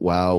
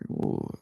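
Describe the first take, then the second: First: It is said slowly with a flat pitch. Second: It is drawn out long and lively. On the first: The speaker is judging or cannot believe what happened. "slow, flat wow" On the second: The speaker feels genuine amazement or excitement. "If you stretch it out"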